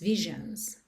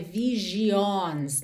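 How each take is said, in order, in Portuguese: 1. As vogais finais são leves e reduzidas. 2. As vogais finais são plenas e distintas. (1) "Esse I O fica visions" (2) "não é visions"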